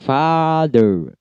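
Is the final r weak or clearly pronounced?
weak. The final r is weak, barely heard. "dalam British ... R-nya lemah ya"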